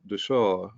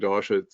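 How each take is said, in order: First: It is said with the Sanskrit pronunciation. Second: It is said with an Americanized pronunciation. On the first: The speaker calls it right. "The Sanskrit is actually pronounced dasha" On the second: The speaker calls it wrong. "often mispronounced"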